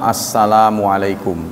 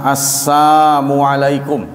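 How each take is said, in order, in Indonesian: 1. Kata pertama diucapkan dengan bunyi L. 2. Kata pertama diucapkan tanpa bunyi L. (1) "kalau ada lam" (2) "orang Yahudi ini mengucapkan tanpa lam"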